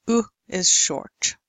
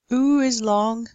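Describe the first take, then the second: First: Brief, lax OO as in "put"; short oo. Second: OO drawn out as a long tense vowel. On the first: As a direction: cut "oo" short and loose. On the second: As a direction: hold "Oo" long and tight. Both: Shown as a demonstration.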